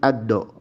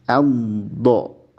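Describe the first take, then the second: First: The consonant is released quickly and short. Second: The consonant is drawn out along the tongue. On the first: The speaker calls it wrong. "tidak langsung" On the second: The speaker calls it right. "makhrajnya memanjang"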